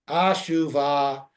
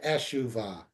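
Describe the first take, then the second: First: The first vowel is a lengthened 'ah' sound. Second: The first vowel is a short 'eh' sound. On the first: "ashuva again would be the same kind of... we lengthen an eh to an ah" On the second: "as opposed to"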